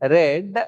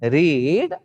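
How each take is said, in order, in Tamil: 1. உயிர் ஒலி குறுகிய 'e' ஒலி. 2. உயிர் ஒலி நீண்ட 'ee' ஒலி. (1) "இது வந்து ரெட்" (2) "இதை வந்து ரீட்"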